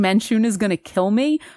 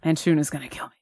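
First: It is said without a depressed tone. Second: It is said in a depressed tone.

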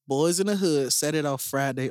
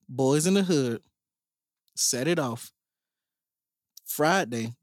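First: The titles are said quickly. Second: The titles are said slowly. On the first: The speaker calls it wrong. "Why you say that so fast?" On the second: The speaker calls it right. "I'm gonna say it slower"

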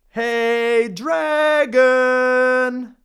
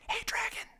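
First: It is shouted very loudly. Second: It is whispered very softly.

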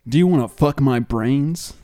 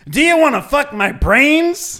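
First: It is said faintly and quietly. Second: It is said with more volume.

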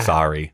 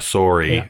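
First: The first vowel is an open 'ah' sound. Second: The first vowel is a rounded 'oh' sound. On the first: This is the American way of saying it. "Americans say it with an A" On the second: This is the Canadian way of saying it. "Canadians say it with an O"

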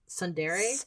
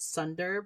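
First: The word ends with a 'deray' sound. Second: The word ends with a short 'dar' sound. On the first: The speaker calls it right. "but it's Sundere" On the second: The speaker calls it wrong. "I always pronounce the word wrong. I always want to say it's Sundar"

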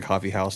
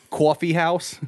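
First: It is said in a plain, neutral accent. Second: It is said in a strong East Coast accent.

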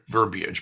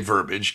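First: It is said with an ee sound, three syllables. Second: It is said without the ee sound, two syllables. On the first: The speaker calls it right. "Verbiage is the word" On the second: The speaker calls it wrong. "they say verbiage because they mispronounce it"

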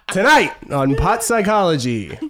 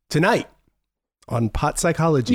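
First: It is said loudly, close to a yell. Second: It is said at a calmer, quieter level. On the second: "You didn't yell it enough"

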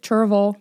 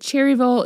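First: The middle syllables roll together into one. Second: The middle syllables are said fully and separately. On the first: The speaker calls it right. "Kind of rolls together" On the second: The speaker calls it wrong. "But it wasn't Cherryville"

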